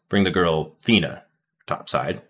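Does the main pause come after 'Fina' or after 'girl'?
after Fina. A pause separates 'Fina' from 'topside'.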